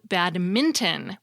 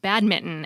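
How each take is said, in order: First: An n sound is said before the t. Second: No n sound is said before the t. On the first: The speaker calls it right. "with an N" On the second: The speaker calls it wrong. "not badminton, as many people say"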